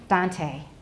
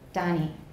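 First: The middle consonant is a full t stop. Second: The middle consonant is a quick nasal tap. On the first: The speaker calls it right. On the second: The speaker calls it wrong.

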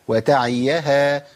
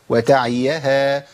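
No difference in how they are said.

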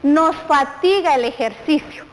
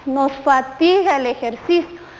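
First: The voice sounds cheerful and bright. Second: The voice sounds weary and tired. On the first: The speaker calls it wrong. "Pero vamos a decir, contentos, ¿verdad?" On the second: The speaker calls it right. "¿Cómo hacemos un rostro cansado?"

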